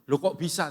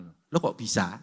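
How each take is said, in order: First: Said in the usual way. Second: Lower, drawn-out viral catchphrase; like a famous TikToker. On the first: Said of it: "saya bilang". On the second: Retold or imitated. Pastor mimics a famous TikToker for the congregation, lower and drawn out. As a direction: mimic a TikToker's trademark line. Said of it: "Kayak TikToker terkenal".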